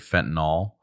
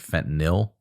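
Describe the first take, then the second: First: The ending rhymes with the end of Tylenol. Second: The ending rhymes with the end of NyQuil. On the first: The speaker calls it wrong. "I always say fentanyl" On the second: The speaker calls it right. "it's actually fentanyl. Like NyQuil, not like Tylenol"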